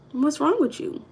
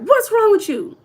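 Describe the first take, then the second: First: The tone is curious and caring. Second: The tone is shaming and judgmental.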